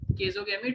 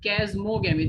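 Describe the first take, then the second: First: It is said without an m sound. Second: It is said with an m sound. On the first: The speaker calls it wrong. "is not chasogamy" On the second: The speaker calls it right. "it's chasmogamy. There's a M also"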